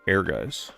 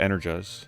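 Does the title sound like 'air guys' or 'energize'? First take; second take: air guys; energize. First: The title sounds like the words air guys. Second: The title sounds like the word energize. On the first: The speaker calls it right. "the way that you pronounce this is Air Guys" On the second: The speaker calls it wrong. "I used to say Energize"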